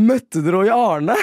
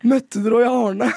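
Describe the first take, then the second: First: Slow, lightly higher local woman asking; a hint of an eager Harstad lady; local woman's question. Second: Higher, slow, louder eager Harstad lady; local woman's question. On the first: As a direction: play the lady in the crowd asking, mildly voiced. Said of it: "sier hun bare sånn". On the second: Retold or imitated. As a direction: ham up the lady's question with a high voice. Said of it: "som var sånn".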